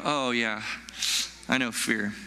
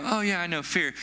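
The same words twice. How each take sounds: First: Low, slower admission of fear; sobered recognition. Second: Said in the usual way. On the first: Acted. Preacher voicing a listener who truly knows fear, sobered recognition. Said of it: "when I mention fear that way". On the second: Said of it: "and you go".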